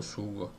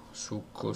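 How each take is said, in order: First: Sugo said the Italian way with a soft g, quiet; teacher naming the word sugo that comes from succo, softly with a soft g. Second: Succo said the Italian way, a long double k, quiet; teacher tracing sugo back to succo, saying succo softly with a crisp double k; Italian word succo. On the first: Teacher landing on sugo after succo, saying it quietly. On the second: Teacher showing where sugo comes from, saying succo quietly. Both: Shown as a demonstration. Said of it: "From succo".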